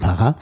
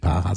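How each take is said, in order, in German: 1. Die Betonung liegt auf der letzten Silbe. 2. Die Betonung liegt auf der ersten Silbe. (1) "sondern Pará ... das hinten betont" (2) "eigentlich nicht Para"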